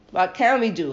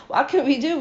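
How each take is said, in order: First: Said in the usual way. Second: A lightly raised, helpless rising question; pleading leaders. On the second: Acted. Princes pleading to the congregation, a mild helpless lift. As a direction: princes asking what they can do. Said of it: "And the nesiim say to the congregation".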